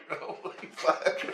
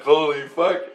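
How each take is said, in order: First: "Holy fuck" breathed slowly and unvoiced, no voice at all; awed whisper. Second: Said in the usual way. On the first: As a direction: let "Holy fuck" out as a slow, stunned whisper. Awed reaction, then repeated voiced.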